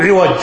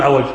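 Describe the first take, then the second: First: عوج said as 'iwaj, with a short i after the ayn; correct form, with kasra. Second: عوج said as 'awaj, with an a after the ayn; wrong form, with fatha. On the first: Teacher drilling students on the right vowel, 'iwaj with kasra. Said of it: "تقول عوج". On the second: Teacher showing students the wrong vowel, 'awaj with fatha. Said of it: "ولا تقول عوج". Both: Shown as a demonstration.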